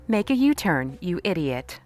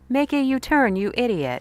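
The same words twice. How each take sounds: First: It is said in a GPS voice. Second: It is said in a TikTok AI voice.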